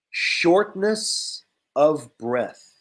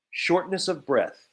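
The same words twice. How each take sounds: First: Shortness of breath said slowly and carefully; slow model word. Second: Said in the usual way. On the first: Shown as a demonstration. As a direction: stretch out each word of shortness of breath for learners.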